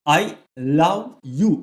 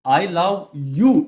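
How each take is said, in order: First: The stress is on the word love. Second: The stress is on the word you.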